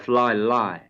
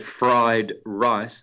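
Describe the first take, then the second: First: The words are said with L sounds. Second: The words are said with R sounds. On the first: "they will say fly lie" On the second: "they won't say fried rice"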